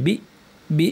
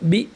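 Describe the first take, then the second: First: The vowel sound keeps going after the syllable. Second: The vowel sound stops sharply after the syllable. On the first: The speaker calls it wrong. "এরকম না" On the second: The speaker calls it right. "আওয়াজ জারি না থাকে বন্ধ হয়ে যায়"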